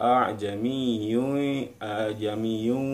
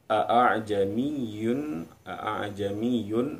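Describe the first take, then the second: No difference in how they are said.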